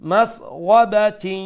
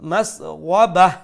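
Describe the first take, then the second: First: The word ends with a ti sound. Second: The word ends with an h sound. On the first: The reading continues into the next word. "Continue করার বেলা আমরা পড়বো" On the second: The reading stops on this word. "আর স্টপ করলে"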